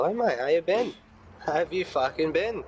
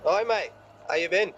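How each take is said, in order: First: High, sneering "Hi, mate"; cheeky greeting. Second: Cheeky greeting. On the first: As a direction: greet him with mock cheer. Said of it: "I hit him with the". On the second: Greeting villain in character. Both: Acted.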